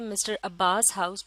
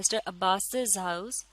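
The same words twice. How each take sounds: First: Abbas runs straight into house, no added syllable. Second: Abbas is followed by an extra 'iz' syllable. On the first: The speaker calls it wrong. "हम इस तरह से नहीं कहते" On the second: The speaker calls it right. "हम इस तरह से बोलते हैं"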